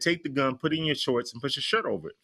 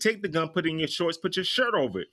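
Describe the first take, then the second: First: It is said in a calm, plain voice. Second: It is said firmly, like a commanding parent.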